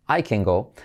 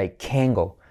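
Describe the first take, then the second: First: Said in the usual way. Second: "can" stressed as a whole word, T dropped. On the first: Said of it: "lo que hacemos es enfatizar". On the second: Shown as a demonstration. Teacher showing students the negative "can't go", "can" emphasized. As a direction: lean on "can" for the negative, no final T. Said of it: "enfatizar toda la palabra".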